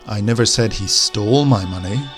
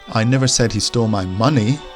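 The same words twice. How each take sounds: First: The stress falls on the word stole. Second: The stress falls on the word money. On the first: He may have taken it without stealing it. "maybe he borrowed my money, but he didn't steal it" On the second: Something else of mine was stolen. "he stole something of mine, but not money"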